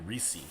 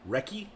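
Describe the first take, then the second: First: The middle consonant is a soft S sound. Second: The middle consonant is a hard K sound. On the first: This is how the speaker expects it to be said. "I would think it'd be Reese" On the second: This is how people in the UK say it. "It's also weird to have a, a hard C sound in that word"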